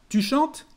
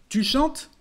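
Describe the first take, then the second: Both takes have the same delivery.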